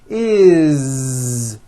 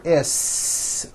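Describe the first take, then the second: First: It ends with a voiced buzzing z sound. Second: It ends with a voiceless hissing s sound. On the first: The speaker calls it right. "always is with a voiced Z" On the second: The speaker calls it wrong. "never is, unvoiced, never"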